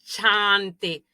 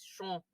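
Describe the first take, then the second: First: The vowel is a plain open A. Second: The vowel is nasal, between A and O. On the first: The speaker calls it wrong. "No es chante" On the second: The speaker calls it right. "es sho. Suena como una, entre una A y una O"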